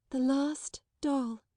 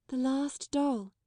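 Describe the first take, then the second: First: Put-on slow, higher, mournful child voice. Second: Slow, mournful, higher. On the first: Sarah repeating it, slow and mournful. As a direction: say it like a lost thing. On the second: Sarah to the headmistress, slow and mournful. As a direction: let it sink, sadly. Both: A narrator's reading. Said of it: "her little mournful voice".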